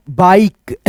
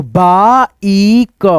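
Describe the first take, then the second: First: Said in the usual way. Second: बाइक in slow, stretched parts, baa, ee, ka; drawn-out बा-ई-क for a learner; sounded out. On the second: Shown as a demonstration. Teacher sounds the word out.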